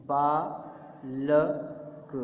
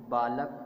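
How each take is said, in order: First: बालक with the बा held very long; stretched long vowel. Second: Said in the usual way. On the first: Shown as a demonstration. Teacher showing children the long आ in बालक. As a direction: drag out बा in बालक, keep ल and क short. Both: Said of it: "बा में आ की मात्रा है".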